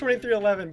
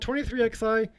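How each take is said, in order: First: XI is read out as the number eleven. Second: XI is read out as two letters. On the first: "I know it's twenty-three eleven" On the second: "it's fun to say it like that"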